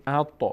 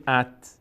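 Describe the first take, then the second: First: ات with the heavy t bouncing slightly; "at" with a slight bouncing release for ات; correct echoing stop. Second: ات closed on a plain t with no bounce; faulty "at" for ات; wrong plain stop. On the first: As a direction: give the consonant ending ات a small echo. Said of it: "میگیم". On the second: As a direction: end ات on a dead, unechoed t. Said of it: "نمیگیم". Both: Shown as a demonstration.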